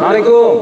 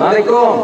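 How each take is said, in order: Both takes have the same delivery.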